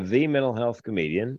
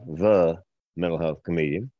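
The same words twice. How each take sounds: First: It is said in his ordinary accent. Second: It is said in a Southern drawl.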